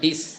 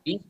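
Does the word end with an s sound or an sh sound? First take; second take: s; sh. First: The word ends with an s sound. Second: The word ends with an sh sound. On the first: The speaker calls it right. "এটা স উচ্চারণ হবে" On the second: The speaker calls it wrong. "ডিস বলবো না"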